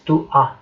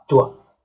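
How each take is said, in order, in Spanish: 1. Las dos palabras se dicen por separado. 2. Las dos palabras se juntan y suenan como una sola. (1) "tú no dices tu a" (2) "Tú dices tua"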